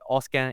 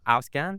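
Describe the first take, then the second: First: The first syllable sounds like the start of 'Australia'. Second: The first syllable has the German 'au' sound. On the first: The speaker calls it wrong. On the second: The speaker calls it right.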